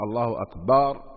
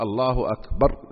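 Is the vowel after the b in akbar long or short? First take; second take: long; short. First: The vowel after the b is drawn out long. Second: The vowel after the b is short. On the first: It turns the word into the plural of a drum. The speaker calls it wrong. "لأن أكبر جمع مفرده كبر" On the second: God is greater. The speaker calls it right. "قل الله أكبر"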